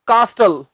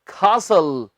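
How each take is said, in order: First: The t sound is pronounced in the middle. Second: The t sound is left out entirely. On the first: The speaker calls it wrong. "Wrong" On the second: The speaker calls it right. "इसमें हमने टी नहीं बोलनी"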